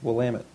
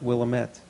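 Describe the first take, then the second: First: It is said as will-LAM-it. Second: It is not said as will-LAM-it. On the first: The speaker calls it right. "but it's pronounced Willamette" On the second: The speaker calls it wrong. "I called it Willamette"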